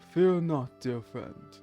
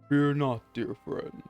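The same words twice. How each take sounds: First: It is read in a plain narrating voice. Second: It is read in a put-on character voice. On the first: The speaker calls it wrong. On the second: The speaker calls it right.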